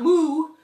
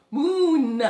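First: "moo" ending on an open vowel; "moo" without N. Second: "moon" with a sounded n at the end; stressed final N. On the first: Telling children what it is not, "moo" open-ended. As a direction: say "moo" with no final n. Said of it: "Not moo". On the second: Correcting moo for children, "moon" with clear n. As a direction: land firmly on the n of "moon". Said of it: "Not moo, moon". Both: Shown as a demonstration.

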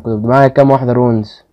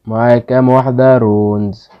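First: Said in the usual way. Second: Slow, drawn-out repeat of رونز question; pondering it aloud, slowly. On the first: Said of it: "repeats the question slowly". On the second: Shown as a demonstration. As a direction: stretch out كام واحدة رونز slowly. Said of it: "repeated slowly".

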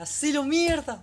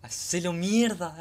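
First: Very high, very loud drawn-out scream; screaming cheer. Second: Slow, loud, high cheer; hype cheer. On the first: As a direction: scream it at the screen in full hype. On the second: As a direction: cheer him on like a fan. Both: Real, not acted. Cheering on anime hero.

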